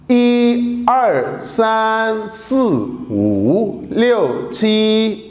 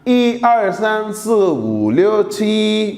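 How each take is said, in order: First: It is said at a slower pace. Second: It is said at a faster pace.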